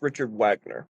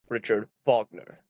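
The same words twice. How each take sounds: First: The name is pronounced the English way. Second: The name is pronounced the German way. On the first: "but in English, it's Richard Wagner" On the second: "That's the German pronunciation"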